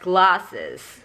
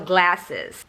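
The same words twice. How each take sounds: First: The first vowel is a long, back ah sound. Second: The first vowel is a front, flat a sound. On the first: "glasses as glasses" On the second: "yang diucapkan uh, sebagai E"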